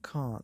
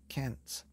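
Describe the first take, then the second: First: It is said with a British accent. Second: It is said with an American accent.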